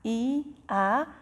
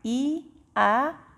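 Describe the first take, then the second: Both takes have the same delivery.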